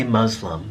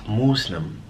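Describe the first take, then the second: First: Muslim said with "uh" and a z, MUZ-lum; mispronounced Muslim. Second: Muslim drawn out slowly, MOOS-lim; corrected Muslim. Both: Shown as a demonstration. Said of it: "That's not how you say it".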